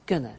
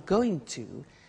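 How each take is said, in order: First: The two words are squeezed into one. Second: Both words are said fully and separately.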